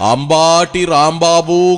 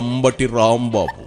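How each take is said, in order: First: The second syllable has a long vowel. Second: The second syllable has a short vowel. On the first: The speaker calls it wrong. "అంబాటి Rambabu కాదు" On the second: The speaker calls it right. "ఆయన పేరు అంబటి రాంబాబు"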